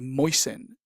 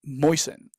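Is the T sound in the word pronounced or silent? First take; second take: silent; silent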